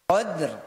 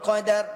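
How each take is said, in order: First: The d and r run together with no vowel. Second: An extra vowel is inserted between d and r. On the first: The speaker calls it right. "R-nya itu nisfil harakah. Kita tidak tinggalkan dia" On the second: The speaker calls it wrong.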